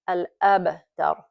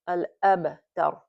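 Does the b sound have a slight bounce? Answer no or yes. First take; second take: yes; yes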